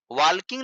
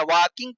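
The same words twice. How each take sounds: First: वॉकिंग said with an l sound, like "walking" spelt out; wrong pronunciation. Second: वॉकिंग with a silent l, "waa-king"; correct pronunciation. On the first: (वॉकिंग में l की आवाज़ के साथ गलत उच्चारण) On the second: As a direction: say वॉकिंग with no l sound at all. (वॉकिंग बिना l की आवाज़ के, सही उच्चारण) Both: Shown as a demonstration. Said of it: "सही उच्चारण होता है वॉकिंग".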